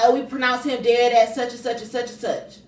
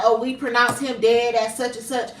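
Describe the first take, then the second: First: Mocking doctors. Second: Said in the usual way. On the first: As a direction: mimic the doctors brushing her off. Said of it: "They like". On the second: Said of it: "and they was like".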